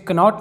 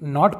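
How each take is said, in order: First: The word begins with a k sound. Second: The word begins with an n sound. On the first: The speaker calls it wrong. "इसे कनॉट नहीं" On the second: The speaker calls it right. "नॉट पढ़ेंगे"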